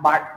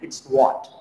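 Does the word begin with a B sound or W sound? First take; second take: B sound; W sound. First: It begins with a flat-lipped B-like sound. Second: It begins with a lip-rounded W sound. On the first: The speaker calls it wrong. "It's बट, बट, बट नहीं" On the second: The speaker calls it right.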